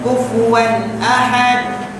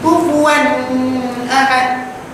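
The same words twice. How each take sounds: First: It is said clearly and quickly. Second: It is said clearly but slowly. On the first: The speaker calls it right. "Jelas dan cepat" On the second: The speaker calls it wrong. "Jelas dah, tapi lambat. Salah"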